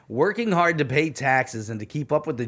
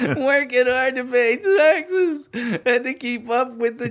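First: It is read in a plain normal voice. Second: It is read in an unclear put-on voice. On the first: The speaker calls it right. "read it normal" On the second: The speaker calls it wrong. "People can't even understand what you're saying. So read it normal"

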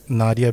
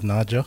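First: The middle consonant is a plain d sound. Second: The middle consonant is a j sound. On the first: "Nadia becomes Nadja" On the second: "the D, like it becomes a J"

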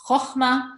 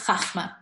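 First: The first vowel is a rounded 'oh' sound. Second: The first vowel is an open 'ah' sound. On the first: The speaker calls it right. "It's chokhmah" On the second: The speaker calls it wrong. "I don't know why people say chachma. It's not chachma"

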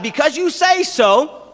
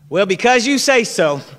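First: It sounds sincere and respectful. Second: It sounds grudging, as if placating someone.

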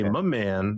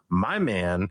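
First: 'My' is reduced to a short 'muh'. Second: 'My' is said in full with its diphthong. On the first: It is a casual, friendly way to address someone. The speaker calls it right. "you have to say muh. If you say my man, now it sounds fine" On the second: It sounds like addressing a romantic partner. The speaker calls it wrong. "it definitely sounds like you're talking about your"

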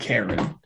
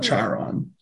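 First: The name sounds like the name Karen. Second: The name is said with a different opening sound. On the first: The speaker calls it right. "you pronounce it Karen" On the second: The speaker calls it wrong. "Not Charon"

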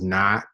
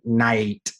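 First: The vowel is a single flat sound. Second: The vowel glides as a two-part diphthong. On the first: "But in Texas English, it becomes" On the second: "taking diphthongs and turning them into monothongs, like night"

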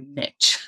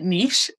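First: Niche is said the American way. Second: Niche is said the non-American way.

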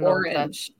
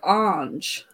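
First: The word is pronounced in the standard way. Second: The word is pronounced in an odd way. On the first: This is the usual way to say it. The speaker calls it right. "instead of orange" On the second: Someone else said it this way. The speaker calls it wrong. "he said like orange"

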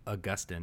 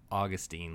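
First: The name is said in a learned-sounding way. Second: The name is said like the grass name. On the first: The speaker is showing off knowledge. "sound like you know tons of information" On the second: The speaker is being plain and unpretentious. "like the grass"

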